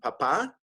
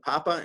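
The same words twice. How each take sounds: First: The stress is on the last syllable. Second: The stress is on the first syllable. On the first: It means dad. "papa means dad" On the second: It means potato. "papa means potato"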